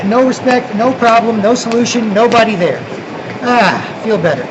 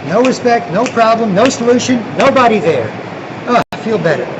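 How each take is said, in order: Both takes have the same delivery.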